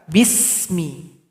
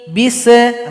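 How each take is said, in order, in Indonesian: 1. Bunyi s mengalir halus dengan nafas. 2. Bunyi s berakhir dengan pantulan. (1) "Jadi alirkan bunyi nafas kita" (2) "enggak boleh dibaca bisa"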